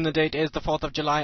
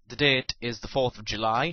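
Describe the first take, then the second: First: It is said very fast. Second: It is said slowly.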